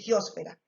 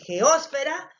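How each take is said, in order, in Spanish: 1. La sílaba tónica es fe. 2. La sílaba tónica es os. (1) "puede ser una palabra grave y obtener la mayor fuerza de voz en la penúltima sílaba" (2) "esdrújulas tengan el acento en la antepenúltima sílaba"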